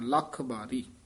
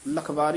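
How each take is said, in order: First: The two words are said as separate words. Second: The two words are run together as one. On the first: The speaker calls it right. "ਲੱਖ ਪਦ ਕਸ ਕੇ ਬੋਲਣਾ, ਬਾਰੀ ਵੱਖਰਾ ਪਦ ਪੜਨਾ" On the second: The speaker calls it wrong. "ਇਕੱਠਾ ਨਹੀਂ ਕਹਿ ਦੇਣਾ"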